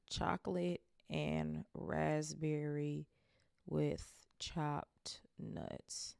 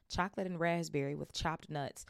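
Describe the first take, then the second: First: Very slow, each word drawn out; slow savoring. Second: Said in the usual way. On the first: Shown as a demonstration. Reader slowly repeating the flavor to note it. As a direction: savor every word as you write it down. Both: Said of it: "Literally just made a note".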